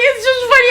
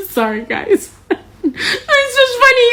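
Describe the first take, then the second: First: Said in the usual way. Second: Slow, laughing "It's just funny." pitched high. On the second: Real, not acted. Laughing about Kentucky vote.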